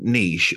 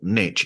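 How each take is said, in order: First: It is said with a British pronunciation. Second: It is said with an American pronunciation.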